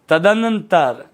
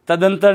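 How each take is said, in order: First: The word has two 'n' syllables: tadanantar. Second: The word has one 'n' syllable: tadantar. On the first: The speaker calls it right. "ये होता है तदनंतर" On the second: The speaker calls it wrong. "तदंतर नहीं होता"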